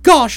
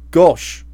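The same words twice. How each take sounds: First: Said in the usual way. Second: A low, dull "Gosh."; "Gosh." lowered into a meek husband's voice; Trotter's gosh. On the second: A narrator's reading. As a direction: drop "Gosh." low and flat like a henpecked husband. Trotter voiced, then narrator quotes it.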